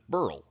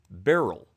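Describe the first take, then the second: First: The name is said as one syllable. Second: The name is said as two syllables. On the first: "people with this name who pronounce it Burl" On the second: "this pronunciation guide say it should be pronounced as Beryl"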